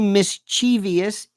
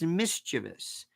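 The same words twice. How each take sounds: First: It is said with an extra sound added. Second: It is said without the extra sound. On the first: The speaker calls it wrong. "Don't say mischievous" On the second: The speaker calls it right. "it's mischievous"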